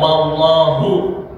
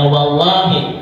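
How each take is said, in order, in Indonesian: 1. Kata itu diakhiri dengan vokal u. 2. Kata itu diakhiri dengan vokal i. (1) "Jadi tidak"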